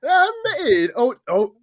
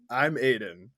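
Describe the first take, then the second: First: Very high, loud squeaky cartoon voice that breaks off; Toad. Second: Said in the usual way. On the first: Co-host botching his introduction to listeners, attempted Toad voice. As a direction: squeak it like a cartoon mushroom, then falter. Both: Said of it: "Were you doing a toad over there".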